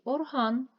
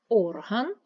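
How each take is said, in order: First: Орган with a long, stressed -ган; stress on second syllable. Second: Орган with a loud first О; stress on first syllable. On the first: Teacher comparing two words, second-syllable stress on орган. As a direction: hit the last syllable of орган. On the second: Teacher comparing two words, first-syllable stress on Орган. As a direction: punch the opening vowel of Орган. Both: Shown as a demonstration. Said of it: "Наголос може змінювати значення".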